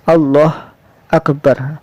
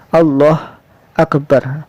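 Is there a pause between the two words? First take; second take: yes; yes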